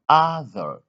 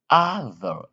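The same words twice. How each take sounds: The two takes are said the same way.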